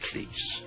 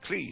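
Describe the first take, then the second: First: The name ends with a 'ts' sound. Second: The name ends with a 'z' sound. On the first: The speaker calls it wrong. "It's not cleats" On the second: The speaker calls it right. "Rhymes with cheese"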